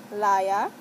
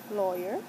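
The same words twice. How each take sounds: First: "liar" as LAH-yah, no final r; "liar" for lawyer, open ah vowels; Saint Croix "lawyer". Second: "lawyer" as LOY-er; "lawyer" pronounced loy-yer, less punched; standard "lawyer". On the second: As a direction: say "lawyer" with an oy in the first syllable. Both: Shown as a demonstration. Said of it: "in my accent".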